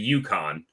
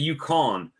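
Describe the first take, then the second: First: Yukon is said with an English pronunciation. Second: Yukon is said with a French-style pronunciation. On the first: The speaker calls it right. "in English, that's the Yukon" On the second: The speaker calls it wrong. "He said Yukon"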